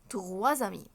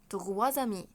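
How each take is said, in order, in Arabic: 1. صوت z يربط بين الكلمتين. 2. صوت z يربط بين الكلمتين.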